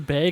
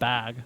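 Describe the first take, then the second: First: The vowel is raised, sounding close to 'beg'. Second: The vowel is open, as in 'bat'. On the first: This is how the speaker, a Canadian, says it. "I say bag" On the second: This is how others expect it to be said. "instead of bag"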